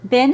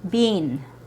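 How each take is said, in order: First: The vowel is a short I sound. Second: The vowel is a long E sound. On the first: "it's only in the American accent" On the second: "Canadians, for example, pronounce it with a long E sound"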